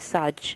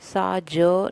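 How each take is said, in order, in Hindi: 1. दोनों अक्षर एक साथ जुड़कर बोले जाते हैं। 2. दोनों अक्षर अलग-अलग बोले जाते हैं।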